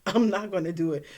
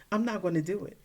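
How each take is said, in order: First: Fast, laughing no; giggling stubborn refusal. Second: Said in the usual way. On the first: Retold or imitated. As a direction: rush it out through a laugh.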